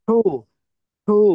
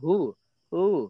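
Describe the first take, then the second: First: It is loud with strong breath from the belly. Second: It is soft and weak with little breath. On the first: The speaker calls it right. "পেট থেকে বাতাস আসবে, একদম পেট থেকে, পেটটা নড়বে। ... জোরে।" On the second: The speaker calls it wrong. "কয়েকজন মানুষ অলস। ... মানে শরীরে শক্তি নাই মনে হয়।"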